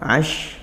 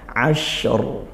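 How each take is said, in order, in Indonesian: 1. Bunyi r di akhir dihilangkan. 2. Bunyi r di akhir jelas dilafalkan. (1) "mana ra-nya?" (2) "Tetap dilafalkan ya"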